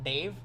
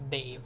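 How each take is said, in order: First: The D is an ordinary English alveolar D. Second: The D is dental, tongue touching the teeth. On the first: The speaker calls it wrong. "It's not like D sound as in Dave" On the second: The speaker calls it right. "the tip of your tongue touches your teeth"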